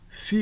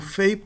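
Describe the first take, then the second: First: The vowel is a plain i sound. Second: The vowel is an ei diphthong. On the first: This is the later pronunciation of the name. "Depois da época clássica, mesmo em grego, ela passou a ser chamada de Fi" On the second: This is the classical-period pronunciation of the name. "Fei era a pronúncia da época clássica"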